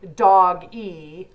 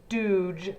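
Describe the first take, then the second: First: It is two syllables, sounding like doggy. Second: It is one syllable, rhyming with douche. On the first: "like Doggy" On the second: "sounds like douche"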